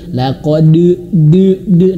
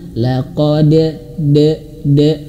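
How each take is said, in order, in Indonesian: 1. Pantulan bunyi d di akhir itu tebal dan berat. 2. Pantulan bunyi d di akhir itu tipis dan ringan. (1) "berlebihan tebal" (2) "huruf dal dia memiliki sifat tarkik, tipis"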